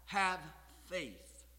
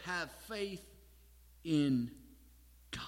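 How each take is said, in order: First: "have faith" weighted, with a pause between the words; stress on HAVE FAITH. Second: "in God" set apart by long pauses, "in" hit hard; stress on IN GOD. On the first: Preacher showing his youthful mistake, emphasis on "have faith". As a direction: lean hard on "have", then set "faith" apart. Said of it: "I put the emphasis on that". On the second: Preacher correcting the emphasis of the verse, stress on "in God". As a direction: say "have faith", pause, then weight "in" and "God" separately. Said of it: "it's on where that faith should be directed".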